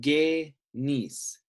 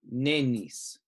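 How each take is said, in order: First: The syllable starts with a hard g sound. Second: The syllable starts with an n sound. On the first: The speaker calls it right. "the Ghamma becomes a G sound" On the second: The speaker calls it wrong. "not a N sound"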